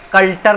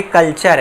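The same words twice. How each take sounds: First: कल्टर with a hard "t", "kal-tar"; कल्टर ending in "tar" instead of "char"; mispronunciation. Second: कल्चर with a "ch", "kal-char"; कल्चर ending in a clear "char"; correct pronunciation. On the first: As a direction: read the t literally in कल्टर. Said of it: "कल्टर नहीं है ये". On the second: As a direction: turn the t into "ch" in कल्चर. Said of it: "ये कल्चर है". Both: Shown as a demonstration.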